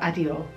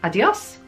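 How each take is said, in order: First: The word ends without any S sound. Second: The word ends with a clear S sound. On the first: "And sometimes they don't" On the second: "sometimes they pronounce the S's"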